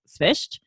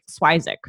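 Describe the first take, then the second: First: It starts with s-v and ends in sht. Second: It has two syllables, ending in zik. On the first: This is the original family pronunciation. "if you want the actual way to pronounce it" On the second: This is a made-up version the family tells everyone. "his grandmother made up a pronunciation"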